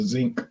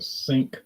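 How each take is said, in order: First: The word begins with a voiced z sound. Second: The word begins with a voiceless s sound. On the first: "as some old Louisiana people call it, the zinc" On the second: "I have to go put this by the sink"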